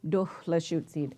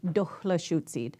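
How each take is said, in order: No difference in how they are said.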